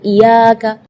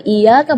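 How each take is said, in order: First: The y sound is held and doubled. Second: The y sound is short and single. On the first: The speaker calls it right. "jadi tekanan iya dengan iyyaka" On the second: The speaker calls it wrong. "Kalau iyyaka berarti tidak ada tasydidnya"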